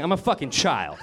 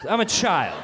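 First: Said in the usual way. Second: Laughing at himself. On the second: Real, not acted.

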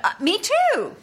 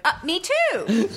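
First: High ditzy "me too"; lightly voiced airhead girl, pitched up. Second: Dreamy, slow ditzy "me too"; lightly voiced airhead girl. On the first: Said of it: "that got me that role". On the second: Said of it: "Sample dialogue?". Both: Shown as a demonstration.

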